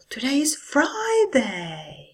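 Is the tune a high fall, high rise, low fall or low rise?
high fall. It starts high and falls down. It shows much more enthusiasm. "Or with a high fall"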